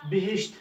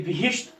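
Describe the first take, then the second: First: बिहिश्त said lightly and softly; unpressed pronunciation. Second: बिहिश्त with pressure on the closing sh-t; pressed pronunciation. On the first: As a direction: pass easily through बिहिश्त. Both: Shown as a demonstration. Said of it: "थोड़ा इसके दबाव से पढ़ना चाहिए".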